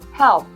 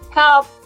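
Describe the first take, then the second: First: It is said quietly. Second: It is said loudly.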